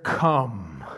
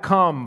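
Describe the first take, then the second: First: Low, rumbling thunder-voice come. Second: Said in the usual way. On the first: A narrator's reading. Creature's low thunderous call to John. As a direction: drop it low like distant thunder. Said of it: "in a voice of, like thunder". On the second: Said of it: "you're gonna hear that".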